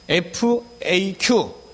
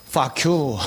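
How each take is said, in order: First: It is spelled out letter by letter. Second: It is read as a single spoken word. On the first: The speaker calls it right. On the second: The speaker calls it wrong.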